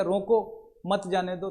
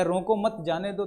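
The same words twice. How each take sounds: First: रोको stands alone, then मत जाने दो together; slow, with a break between रोको and मत जाने दो; pause after रोको. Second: रोको मत grouped together, then जाने दो; pause after मत. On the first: Teacher shows the do-not-let-go meaning, pausing after रोको. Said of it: "तो वो उसको रोक लेगा". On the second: Teacher shows the let-him-go meaning, grouping रोको मत before जाने दो. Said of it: "तो वो रोकेगा नहीं". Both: Shown as a demonstration.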